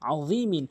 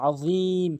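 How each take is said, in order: First: The word ends with a nasal 'in' syllable. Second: The word stops short on a final 'm'. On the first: The recitation continues without stopping. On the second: The reciter stops at this word.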